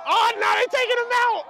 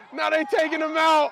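First: High, loud shout at the field; excited shout. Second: Said in the usual way. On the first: Real, not acted. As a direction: yell it out in disbelief.

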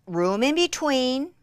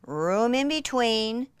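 No difference in how they are said.

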